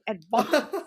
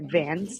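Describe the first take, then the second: First: The word has a non-American pronunciation. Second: The word has an American pronunciation. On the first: "But my teacher, she used the word like" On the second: "That's how you pronounce it in the U S"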